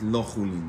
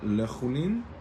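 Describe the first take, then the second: First: The first syllable has a full 'o' vowel. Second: The first syllable has a short schwa vowel. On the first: It is meant as not profane. "nem hangzik úgy, mint lachulin, nem profán" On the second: It is meant as profane food. "azt lehet mondani svával"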